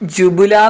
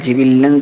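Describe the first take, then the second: First: The vowels are u and the L is single. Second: The vowels are i and the L is doubled. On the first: This is another reading of the word. "ജുബുല എന്നാണ് വരിക" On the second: This is the reading the speaker follows. "ജീമിനും ബായിനും കസറാണ്... മുശദ്ദത്തായിരിക്കും"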